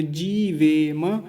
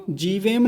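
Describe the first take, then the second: First: जीवेम slowly, ending "ve-ma"; full final ma. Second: जीवेम shut on m without a vowel; wrong ending. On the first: Teacher giving the correct form, जीवेम with open "ma". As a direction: stretch जीवेम and sound the last "ma". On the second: Teacher showing what not to say, जीवेम ending in bare m. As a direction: clip the final vowel off जीवेम. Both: Shown as a demonstration. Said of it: "जीवेम नहीं बोलेंगे".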